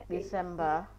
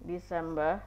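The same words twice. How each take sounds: No difference in how they are said.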